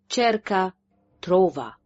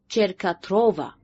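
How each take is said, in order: First: There is a break in the middle. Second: The letters run together as one word. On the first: "فصل الكلمة في منتصفها" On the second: "أعاد نطق الأحرف ودمجها معا"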